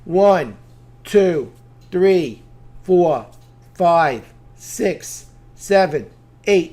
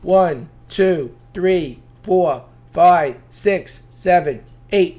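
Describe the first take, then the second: First: The counting is at a steady, moderate pace. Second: The counting is somewhat faster than before.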